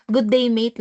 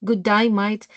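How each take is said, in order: First: Said in the usual way. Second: "Good day, mate" as an Aussie "good die, mite"; mock-Australian greeting; Australian accent. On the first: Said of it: "lang pala yun". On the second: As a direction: mimic an Australian, "day" and "mate" with "eye" vowels. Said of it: "Good day, mate" lang pala yun".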